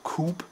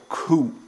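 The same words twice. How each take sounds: First: A 'p' sound is heard at the end. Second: No 'p' sound is heard at the end. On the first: The speaker calls it wrong. "It's not called coup" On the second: The speaker calls it right. "with a silent P"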